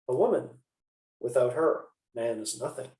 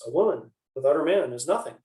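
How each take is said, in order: First: There is a pause after "her". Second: There is a pause after "man".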